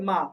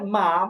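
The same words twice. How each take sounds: First: The syllable is said with a light neutral tone. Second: The syllable is said with the high first tone. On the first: "কোনো টোন নাই, তো এটা হচ্ছে neutral tone" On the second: "প্রথমে আছে first tone"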